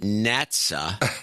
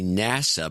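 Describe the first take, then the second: First: It is said with a t before the s. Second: It is said with no t before the s. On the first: The speaker calls it wrong. "the woman on N P R pronounces it NATSA" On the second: The speaker calls it right. "it's actually NASA"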